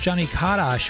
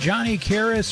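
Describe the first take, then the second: First: The surname is pronounced the Polish way. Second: The surname is pronounced the plain English way.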